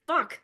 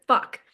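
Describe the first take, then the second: First: A short, higher, frustrated "fuck" as words fail; exasperated curse. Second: "fuck" punched out louder as the most emphatic word. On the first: Real, not acted. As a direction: give up on the sentence with a quick curse. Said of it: "nothing that is as emphatic as the word". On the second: Shown as a demonstration. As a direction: land "fuck" hard as the payoff. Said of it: "as emphatic as the word".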